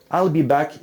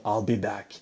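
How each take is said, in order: First: Said in the usual way. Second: Low, soft robotic monotone; flat mechanical movie-robot line; Schwarzenegger robot voice. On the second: Retold or imitated. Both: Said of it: "'cause he sounds like a robot".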